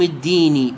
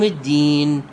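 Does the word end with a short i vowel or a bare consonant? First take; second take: short i; bare consonant. First: The word ends with a short i vowel. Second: The word ends on a bare consonant. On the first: The speaker calls it wrong. "لا يقول مالك يوم الدين بالكسر" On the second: The speaker calls it right. "يقف على ساكن"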